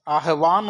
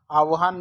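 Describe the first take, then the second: First: आह्वान said as aah-vaan, h before v; correct pronunciation. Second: आह्वान said as aav-haan, v before h; wrong pronunciation. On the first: Teacher gives the right word, correct pronunciation. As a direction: sound h, then vaan in आह्वान. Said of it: "आह्वान होता है". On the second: Teacher shows the mistake again, wrong pronunciation. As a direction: swap v and h in आह्वान. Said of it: "आह्वान नहीं होता". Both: Shown as a demonstration.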